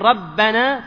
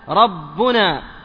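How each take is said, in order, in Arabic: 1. الصائت بعد الباء المضعفة هو a. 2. الصائت بعد الباء المضعفة هو u. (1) "بدل ما تقول ربنا" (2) "ويجوز أيضا في الإعراب رفع ربنا"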